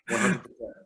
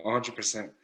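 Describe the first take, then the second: First: Higher, fully committed repeat; really mean it this time; one hundred percent, with conviction; emphatic agreement. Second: Said in the usual way. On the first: Real, not acted.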